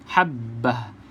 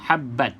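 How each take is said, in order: First: The word ends with an h sound. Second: The word ends with a t sound. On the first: The speaker calls it right. "kita berhenti dia seolah-olah bunyi huruf ha saja" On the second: The speaker calls it wrong. "pastikan kalau berhenti kita tak sebut bunyi ta ni"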